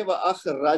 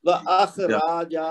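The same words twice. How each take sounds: First: وَأَخْرَجَ ending in quick, short "ra-ja"; short vowels. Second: وَأَخْرَجَ slowly, with "raa-jaa" drawn long; wrongly lengthened vowels. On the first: Teacher shows the right way, وَأَخْرَجَ with short a vowels. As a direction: give each last vowel of وَأَخْرَجَ one beat. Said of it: "اور اس کا طریقہ یہ ہے". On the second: Teacher shows the mistake, وَأَخْرَجَ with long a vowels. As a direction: stretch the last two vowels of وَأَخْرَجَ. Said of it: "ایسے پڑھیں گے تو اس کا مطلب". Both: Shown as a demonstration.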